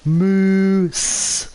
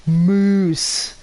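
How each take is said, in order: First: The vowel sounds like the 'oo' in goose. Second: The same.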